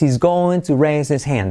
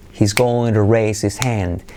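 First: The h at the start of 'he's' is dropped. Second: The h at the start of 'he's' is pronounced.

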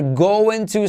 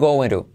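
First: It is said as full 'going to'. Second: It is said reduced, like 'gonna'. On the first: "They're going to se convierte en" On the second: "se convierte en going to"

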